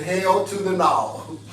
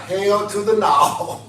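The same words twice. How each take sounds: First: Slow, "Hell to the no" stretched word by word; slow emphatic refusal; drawn-out hell to the no. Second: Slow, each word stretched; slow emphatic refusal; drawn-out hell to the no. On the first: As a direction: lean into "Hell to the no" slowly. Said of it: "let y'all type that". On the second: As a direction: spell out "Hell to the no" slowly and firmly. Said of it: "Somebody type". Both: Shown as a demonstration.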